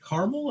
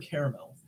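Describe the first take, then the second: First: The word is said with two syllables. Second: The word is said with three syllables. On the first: "Two syllables" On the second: "or three"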